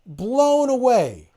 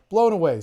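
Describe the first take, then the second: First: "Blown away" stretched slow and high, "Blown" hit hard; drawn-out emphasis. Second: Said in the usual way. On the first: Shown as a demonstration. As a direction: savor "Blown away" slowly, leaning on "Blown".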